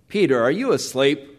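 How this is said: It sounds stern and rebuking. The listener is being scolded. The speaker calls it wrong. "rather that of rebuke, severity"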